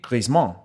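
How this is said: The name is said the French way.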